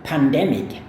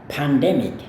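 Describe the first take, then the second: No difference in how they are said.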